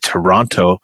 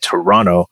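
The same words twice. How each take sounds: First: The second t is clearly pronounced. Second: The second t is dropped. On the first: This is how people in the U.S. say it. "people in the U.S. often say Toronto" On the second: This is how local people say it. "people here say Toronto"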